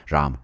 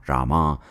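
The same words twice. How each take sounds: First: Ram as one syllable; northern pronunciation. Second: Rama with a final "ah"; southern pronunciation. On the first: Comic giving the northern name, Ram without final ah. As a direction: close Ram on the m. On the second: Comic giving the southern name, Rama ending in ah. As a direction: open up the end of Rama to ah. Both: Shown as a demonstration. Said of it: "giving you a north and south pronunciation".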